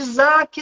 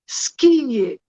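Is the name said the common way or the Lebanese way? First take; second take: common; Lebanese. First: The name is said the common local way. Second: The name is said the Lebanese way. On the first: This is how most people call her. "as pessoas me chamam de Zaque" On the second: This is how the name is said in its home country. "Essa é a pronúncia correta"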